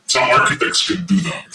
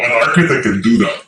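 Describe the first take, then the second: First: Some said lower, leaned on as a correction; stress on SOME. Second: Said in the usual way. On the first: Shown as a demonstration. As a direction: correct yourself by leaning on Some.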